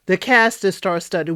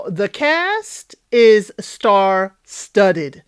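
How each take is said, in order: First: Said in the usual way. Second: Very slow, savoring each word of "the cast is star-studded"; slow emphatic announcement. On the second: Shown as a demonstration. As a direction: stretch out "star-studded" like a grand reveal.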